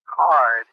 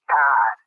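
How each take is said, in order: First: Card is said with a plain American vowel. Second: Card is said with a New Zealand vowel. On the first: "instead of saying card" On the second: "he uh, says card, like C A"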